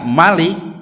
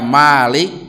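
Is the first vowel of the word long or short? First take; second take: short; long. First: The first vowel is kept short. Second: The first vowel is drawn out long. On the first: It means the king, the one who rules. "kalau dibaca Malik, nah itu sifat musyabahah dari mulkun" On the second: It means the owner, the one who possesses. "ketika Malik ya pakai alif"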